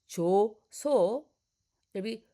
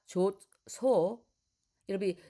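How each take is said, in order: No difference in how they are said.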